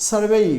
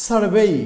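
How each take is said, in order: The two takes are said the same way.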